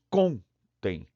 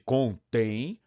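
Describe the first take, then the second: First: The stress is on the first syllable. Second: The stress is on the last syllable. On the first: It is the verb meaning to count. "Com é a parte tônica" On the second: It is the verb meaning to contain. "acento E para deslocar a tônica"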